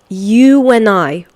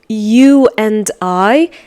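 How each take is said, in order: First: The word 'and' is reduced to 'n'. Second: The word 'and' is pronounced in full. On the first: "they are going to say" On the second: "Instead of saying"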